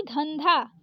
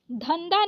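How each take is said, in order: First: धंधा with both dh breathed; correct aspirated ध. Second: धंधा said as dhanda; wrong द for ध. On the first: Teacher correcting it, धंधा with aspirated dha. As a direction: puff the final dha in धंधा. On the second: Teacher showing the mistake, धंधा with plain final da. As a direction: drop the breath from the second dh in धंधा. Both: Shown as a demonstration. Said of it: "धंधा नहीं धंधा".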